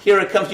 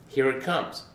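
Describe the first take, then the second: First: Higher, louder mocking echo of "Here it comes."; mocking repeat. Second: Said in the usual way. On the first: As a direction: throw "Here it comes." back at him in disbelief. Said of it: "You need to say, 'Here I come,'". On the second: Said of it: "And he went nuts".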